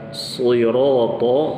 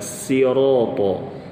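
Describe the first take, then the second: First: The word starts with an emphatic s sound. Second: The word starts with a plain s sound. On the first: "dengan shad" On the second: "ini diarahkan ke huruf sin"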